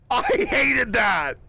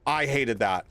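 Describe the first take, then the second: First: Higher and slow, stretched into a hammed-up yell; drawn-out mock shout. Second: Said in the usual way. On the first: Streamer echoing the creepy voice with a slow mock shout. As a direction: wail it slowly like a mock protest.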